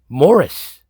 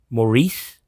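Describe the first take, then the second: First: The name is said the English way, like Morris. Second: The name is said the French way, like Maurice. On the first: The speaker calls it wrong. "That's how you pronounce this name?" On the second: The speaker calls it right. "It's not Maurice?"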